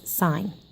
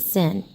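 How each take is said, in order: First: It has a long vowel, rhyming with 'fine'. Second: It has a short vowel, rhyming with 'fin'. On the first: The speaker calls it right. "You always call this sine" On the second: The speaker calls it wrong. "you don't pronounce it sin"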